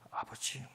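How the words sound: It is said timidly and quietly. The speaker is embarrassed and fears being overheard. The speaker calls it wrong. "부끄러워가지고 누가 들을까봐"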